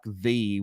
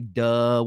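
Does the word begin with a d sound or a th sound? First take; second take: th sound; d sound. First: The word begins with a soft th sound. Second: The word begins with a hard d sound. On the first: This is how Southern speakers do not say it. "we don't say words like the" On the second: This is how Southern speakers say it. "We'll put D in in the space of T H"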